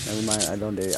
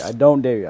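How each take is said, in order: First: Said in the usual way. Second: Louder. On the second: Real, not acted. Louder repeat, stress on don't.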